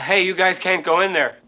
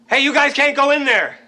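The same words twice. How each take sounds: First: It is said at a quiet, normal volume. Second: It is said loudly, almost shouted.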